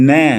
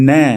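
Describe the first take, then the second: Both takes have the same delivery.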